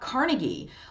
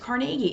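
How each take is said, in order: First: It is said the way New Yorkers say it. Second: It is said the way Pittsburgh locals say it. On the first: The speaker calls it wrong. "It's not Carnegie" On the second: The speaker calls it right. "that's how you say it. It's Carnegie"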